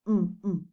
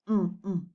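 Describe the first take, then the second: The two takes are said the same way.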